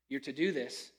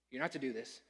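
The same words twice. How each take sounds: First: Said in the usual way. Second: NOT leaned on, falling; correcting himself by hitting not; stress on NOT. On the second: Real, not acted. Preacher fixes his slip, stressing not.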